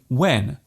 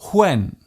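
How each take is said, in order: First: It starts with no breathy h sound. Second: It starts with a strong breathy h sound. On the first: The speaker calls it right. "instead of saying when" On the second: The speaker calls it wrong. "a person might say when"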